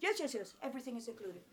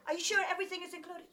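First: Rattled off fast and quiet; quick brushing-off yes. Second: Quick, pressing question; fast doubtful check. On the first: Local man brushing off her worry, fast and quiet. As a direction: dismiss the question in a quick mutter. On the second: She presses the local man on the price, quick and doubtful. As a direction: push for a straight answer, fast. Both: Retold or imitated.

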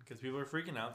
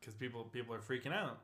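First: Said in the usual way. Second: Whisper. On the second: Real, not acted. Repeats line whispered then plain.

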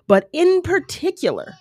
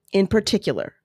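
First: "in particular" lifted high with strong stress on "in"; emphatic in particular. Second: Said in the usual way. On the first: Shown as a demonstration. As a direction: hit "in particular" hard and high.

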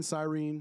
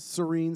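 First: Cyrene said with a long first vowel, sy-REEN; standard pronunciation. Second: Cyrene said with a short schwa first syllable, suh-REEN; alternate pronunciation. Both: Shown as a demonstration. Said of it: "however you wanna put it".

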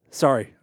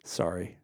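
First: A much louder, emphatic sorry; loud half-laughing apology. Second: Said in the usual way. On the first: Real, not acted. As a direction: blurt the apology out. Apologising after a dark joke.

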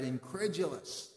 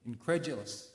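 First: Incredulous drawn out slowly, relishing each syllable; Incredulous spoken slowly with a falling close, savoured like a fine word; savouring the word. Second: Said in the usual way. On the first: Shown as a demonstration. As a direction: roll Incredulous slowly off the tongue, enjoying its sound. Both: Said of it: "the sound of it is great".

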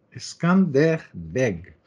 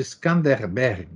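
First: "Skanderbeg" very slowly, split into Skan-der-beg; syllable by syllable. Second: Said in the usual way. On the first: Shown as a demonstration. Reader repeating an unfamiliar name for listeners, "Skanderbeg" slowly syllable by syllable. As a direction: sound out "Skanderbeg" one drawn-out syllable at a time.

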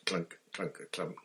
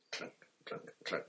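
First: Said in the usual way. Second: Breathy, fading footsteps; almost voiceless, drifting away; whispered. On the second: A narrator's reading. Steps fading up the stairs.

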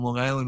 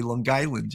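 First: Said in the usual way. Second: "Long Island" with a hard g, like "Lawn Guyland"; "Long Island" imitated the local way, as "Long Guy-land"; local Long Island pronunciation.

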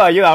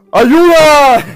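First: Laughing ayuda. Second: Mock macho shout, higher and louder; macho yell for help. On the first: Retold or imitated. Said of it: "Y grito". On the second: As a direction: belt it like a tough guy calling for help. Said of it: "saco mi voz así de, de macho total". (grito de macho pidiendo ayuda)

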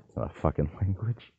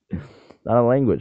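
First: Laughing through the words; half-laughing in disbelief; cracking up while calling it out. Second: Higher, louder, slow and emphatic; loud, slow insistence after the laugh. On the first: Mocking people who believe Pig Latin. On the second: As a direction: lay it down firmly, word by word. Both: Real, not acted.

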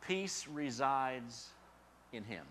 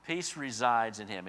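First: Peace resides drawn out slowly; slow, deliberate. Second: Peace hit and then falling; stress on Peace. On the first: Preacher slowing to plant the point. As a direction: lay each word down slowly. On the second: Preacher restating the point with weight on Peace. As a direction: land firmly on "Peace". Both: Shown as a demonstration.

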